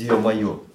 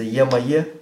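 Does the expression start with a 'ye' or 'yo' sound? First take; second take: yo; ye. First: It starts with a 'yo' sound. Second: It starts with a 'ye' sound. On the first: The speaker calls it right. "А как без «ё-моё»?" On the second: The speaker calls it wrong. "Получится «е-моё»? Не звучит"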